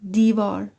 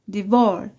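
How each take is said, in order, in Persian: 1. تکیه روی هجای اول است. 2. تکیه روی هجای دوم است. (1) "استرس و صدای بلند روی د هست" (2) "هیچ وقت نمیگیم"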